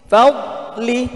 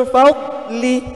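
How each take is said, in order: Both takes have the same delivery.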